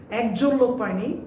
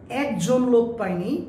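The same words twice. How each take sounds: The two takes are said the same way.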